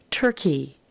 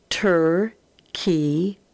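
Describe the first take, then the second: First: Said in the usual way. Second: Turkey split into Tur and key, said slowly, rising at the end; syllable by syllable. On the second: Shown as a demonstration. Teacher sounding out a word for the class, split slow. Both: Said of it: "read across and then put together".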